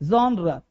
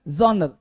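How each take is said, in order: The two takes are said the same way.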